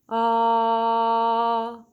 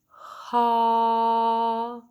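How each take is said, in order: First: The vowel starts cleanly, neither catchy nor breathy. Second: The vowel starts with a puff of breath. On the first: "balanced, a nice merriment of the two" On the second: "an aspirate ah, it would be"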